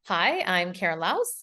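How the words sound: The voice rises at the end like a question. The speaker sounds unsure of the statement. The speaker calls it wrong. "here's the typical way"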